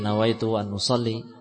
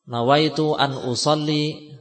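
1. Frasa itu diucapkan dengan pelan, hampir tidak terdengar. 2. Frasa itu diucapkan dengan keras, terdengar oleh orang lain. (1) "dengan lirih" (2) "secara jahr dengan keras"

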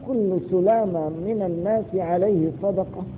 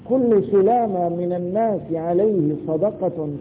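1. تنتهي الجملة بوقفة أخيرة. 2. تستمر الجملة دون وقفة أخيرة.

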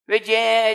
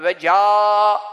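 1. Ünlü önlüleşmiş, 'e' gibi ses çıkarıyor. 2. Ünlü tam açık, 'a' gibi ses çıkarıyor. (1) "Ağzını açmıyor ya. Ve ce diyor" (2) "bir aç ... imale gibi yapma derdi"

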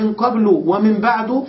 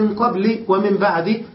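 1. تنتهي الكلمتان بالضمة الخالصة -u. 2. تنتهي الكلمتان بـ -i دون تنوين. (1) "فقد بناهما" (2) "فقد حذف المضاف إليه ونوى لفظا معينا"

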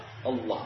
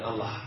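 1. L-nya dibaca tebal dan berat. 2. L-nya dibaca tipis dan ringan. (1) "Dibaca tafkhim kebal" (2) "bukan Allah"

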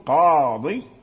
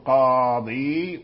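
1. تنتهي الكلمة بكسرة قصيرة. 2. تنتهي الكلمة بكسرة طويلة (ياء). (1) "بحذف الياء" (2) "تقول قاضي"

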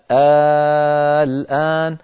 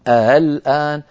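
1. تُبدَل الهمزةُ بمدّةٍ طويلة. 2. الهمزةُ مُسهَّلةٌ، بين الهمزة والألف. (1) "فصارت بالإبدال الآن" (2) "وصارت بالتسهيل"

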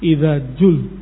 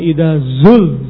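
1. Kata itu diawali dengan bunyi j. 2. Kata itu diawali dengan bunyi z. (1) "diganti menjadi jim" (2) "Seharusnya idza zul zilatil ardu"

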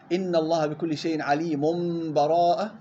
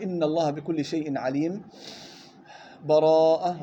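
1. الكلمة الأخيرة تتصل مباشرة بدون أي فاصل. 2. وقف تام مع تنفس قبل الكلمة الأخيرة. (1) "الوصل بدون بسملة" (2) "هذا الوقف"

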